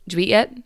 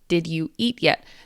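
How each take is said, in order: First: The words are said quickly and run together. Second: The words are said slowly and kept separate.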